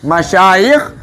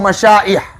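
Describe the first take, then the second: First: The middle consonant is a y sound. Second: The middle consonant is a glottal stop. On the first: The speaker calls it right. "Menggunakan ya ya. Bil ya la bil hamzah" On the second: The speaker calls it wrong. "bukan dengan menggunakan ham"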